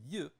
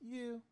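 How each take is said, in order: First: The syllable is said with a falling tone. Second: The syllable is said with a high level tone. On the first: "rather than fourth tone" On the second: "That is first tone"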